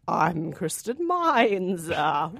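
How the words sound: It is said in a spooky Halloween voice.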